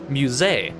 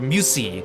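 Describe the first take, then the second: First: The word ends with a clear 'ay' vowel. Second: The word ends without a clear 'ay' vowel. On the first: The speaker calls it right. "E T also makes an A sound in French" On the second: The speaker calls it wrong. "mispronounce it"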